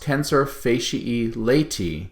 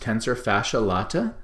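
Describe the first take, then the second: First: The last two words end in an 'ee' sound. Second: The last two words end in an 'ah' sound. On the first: The speaker calls it right. "It's correctly pronounced ... should be pronounced as an E sound" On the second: The speaker calls it wrong. "It's commonly mispronounced"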